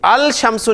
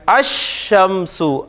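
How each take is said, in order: First: The l is clearly sounded before sh. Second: The l blends into a doubled sh sound. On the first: The speaker calls it wrong. "अल शमसु नहीं पढ़ रहे आप" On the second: The speaker calls it right. "अल शमसु नहीं पढ़ रहे आप"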